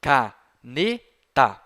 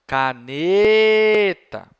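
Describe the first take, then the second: First: CANETA split slowly into CA, NE, TA; syllable by syllable. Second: Calling across street. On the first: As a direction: sound out CANETA in three separate beats. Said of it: "Quantas sílabas ela tem?". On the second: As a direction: call CANETA out, stretching NE. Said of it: "chame essa sílaba". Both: Shown as a demonstration.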